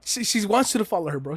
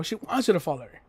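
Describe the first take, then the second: First: Higher and fast, eager; excited realisation. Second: Said in the usual way. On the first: Real, not acted. Telling chat Fang wants him to follow, fast excited. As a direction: blurt it out with excitement.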